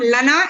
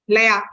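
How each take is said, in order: First: The middle consonant is an n sound. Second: The middle consonant is a y sound. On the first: The speaker calls it wrong. "it's not Lana" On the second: The speaker calls it right. "it is Laya"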